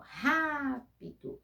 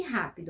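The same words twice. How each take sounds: First: "rápido" with RÁ high and stretched; stress on strong syllable. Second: Said in the usual way. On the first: Shown as a demonstration. Teacher showing pupils the strongest piece, first syllable stretched. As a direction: hold a raised RÁ in "rápido", then drop. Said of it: "qual é o pedaço mais forte". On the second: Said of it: "Pronuncia e você vai ver".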